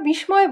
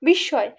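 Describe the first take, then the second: First: The word is said with an m sound. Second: The word has a doubled s and no m. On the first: The speaker calls it wrong. "কিন্তু আমরা বিস্ময় বলি না" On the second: The speaker calls it right. "বলি বিস্ময়, এটাই বাংলা উচ্চারণ"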